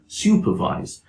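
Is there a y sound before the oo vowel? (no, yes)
yes. A y sound comes before the oo vowel. "a standard British English speaker would say"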